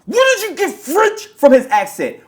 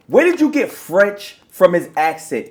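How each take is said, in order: First: Where punched first, rest falling; "Where" leads, the rest drops away; stress on where. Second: Slower, "did" hit hardest; slow stress on did. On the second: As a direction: drag it out, leaning on "did". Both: Real, not acted. Repeating the question in disbelief.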